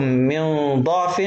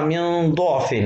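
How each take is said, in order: First: Slowly recited ضعف with an "a" after the dad; fatha reading. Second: ضعف with a rounded "u" after the dad; damma reading. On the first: Teacher showing the first permitted reading, fatha on ضعف. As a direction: say ضعف as "da'f", open vowel. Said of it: "ممكن أقرأها بالفتح". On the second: Teacher showing the alternative reading, damma on ضعف. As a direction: say ضعف as "du'f". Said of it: "وممكن أقرأها بالضم". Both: Shown as a demonstration.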